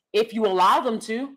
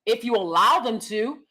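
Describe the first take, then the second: No difference in how they are said.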